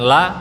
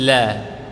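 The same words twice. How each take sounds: First: The l sound is stiff and hard. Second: The l sound is soft and gentle. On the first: The speaker calls it wrong. "Masih terdengar kaku sedikit, bukan la" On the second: The speaker calls it right. "tapi la. La agak lembut"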